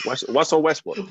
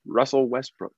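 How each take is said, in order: First: Russell said as Wussell, higher; the r in Russell comes out as a w; says w for r. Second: Russell said with a clear r; the r in Russell said cleanly. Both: Real, not acted. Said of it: "that's like saying Russell".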